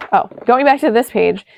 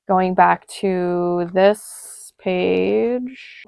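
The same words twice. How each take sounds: First: Said in the usual way. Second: Very slow, words dragged out absent-mindedly; slowed and distracted while looking down at the page; distracted slow speech. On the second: Real, not acted. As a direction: lose your train of thought mid-phrase. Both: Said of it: "Girl, what?".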